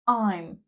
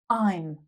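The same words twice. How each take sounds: First: The words merge into one short syllable. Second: The same.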